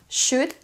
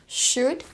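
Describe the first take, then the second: Both takes have the same delivery.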